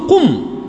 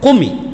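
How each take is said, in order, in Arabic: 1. تنتهي الكلمة بساكن. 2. تنتهي الكلمة بكسرة قصيرة مضافة. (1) "أصله السكون" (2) "كيف التخلص؟ بالكسر"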